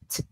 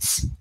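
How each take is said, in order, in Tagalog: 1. Ang t ay malinis na binibitawan, walang sumisitsit. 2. Ang t ay binibitawan nang may sumisitsit na s. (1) "It should be t, t, like that. No s sound" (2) "try to avoid uh, pronouncing S like tss"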